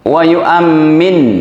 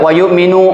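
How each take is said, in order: First: The m sound is doubled and held longer. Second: The m sound is single and short. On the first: The others say amen to the prayer. The speaker calls it right. "Itu mimnya pakai tasdid" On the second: The others believe. The speaker calls it wrong. "Nggak boleh Anda baca wa yu'minu"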